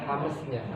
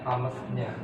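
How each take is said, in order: No difference in how they are said.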